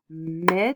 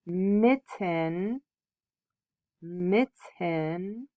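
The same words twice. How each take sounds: First: "Mitten" split into two clapped beats, mit-ten; clapped syllables. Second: Said in the usual way. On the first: Shown as a demonstration. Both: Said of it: "we're going to clap out the syllables".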